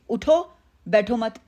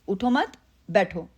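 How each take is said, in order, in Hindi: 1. विराम 'utho' शब्द के बाद है। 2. विराम 'mat' शब्द के बाद है। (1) "मैंने कॉमा कहाँ पे लगाया कि मीनिंग चेंज हो गया" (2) "मैं आपको कह रही हूँ बैठने को कह रही हूँ"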